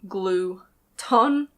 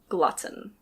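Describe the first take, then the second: First: The first syllable sounds like 'glue'. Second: The first syllable sounds like 'glut'. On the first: The speaker calls it wrong. "it might look like glue-ton" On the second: The speaker calls it right. "the pronunciation is glutton"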